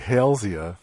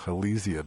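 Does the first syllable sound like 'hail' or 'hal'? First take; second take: hail; hal. First: The first syllable sounds like the name Hale. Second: The first syllable does not sound like Hale. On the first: It keeps the name of the person it honors. "I also say Halesia for the tree ... because it's named for Mr. Hale" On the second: It is the pronunciation most people use. "that most people call Halesia"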